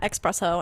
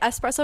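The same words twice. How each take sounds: First: It begins with an 'eks' sound. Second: It begins with a plain 'es' sound. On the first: The speaker calls it wrong. "not espresso" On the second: The speaker calls it right. "And I say espresso"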